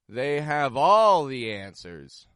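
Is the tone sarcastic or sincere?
sarcastic. It is said sarcastically, pitch rising on all. The speaker doubts their knowledge. "Or this can be used sarcastically"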